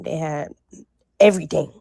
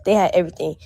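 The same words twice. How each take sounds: First: Everything pulled out after a pause; emphatic. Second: Said in the usual way. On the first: Real, not acted. Telling viewers how stocked the store was, emphatic. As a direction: stretch out they had then land on everything. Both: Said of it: "I cannot emphasize that enough".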